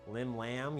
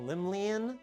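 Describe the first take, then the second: First: The name ends with a 'lam' sound. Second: The name ends with a 'lian' sound. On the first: The speaker calls it right. "I guess it's Lim Lam and not Limlian" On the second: The speaker calls it wrong. "I've been saying Limlian"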